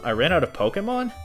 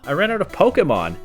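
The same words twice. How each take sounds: First: It is said as a puzzled question. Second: It is said as a loud exclamation.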